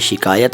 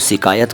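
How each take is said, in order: First: The word begins with an sh sound. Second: The word begins with a plain s sound. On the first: The speaker calls it right. "ये शिकायत है" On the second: The speaker calls it wrong. "कई लोग इसको शिकायत कहते हैं, मत कहिए"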